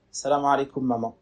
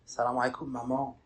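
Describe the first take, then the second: First: Cold greeting. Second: Softer greeting. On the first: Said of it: "Avec une voix étrange". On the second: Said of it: "il commence à s'éduquer un peu plus". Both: Retold or imitated.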